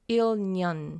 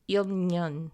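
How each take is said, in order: The two takes are said the same way.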